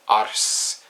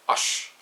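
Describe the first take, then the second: First: The r and s are sounded separately. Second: The r and s merge into sh. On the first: The speaker calls it wrong. "instead of saying ars" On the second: The speaker calls it right. "you would say ush"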